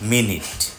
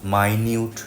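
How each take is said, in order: First: The first vowel sounds like 'i' in 'sit'. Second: The first vowel sounds like 'eye'. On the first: The speaker calls it right. "শব্দটা মিনিট" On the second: The speaker calls it wrong. "এই শব্দটা মাইনিউট না, বহুল প্রচলিত একটা ভুল"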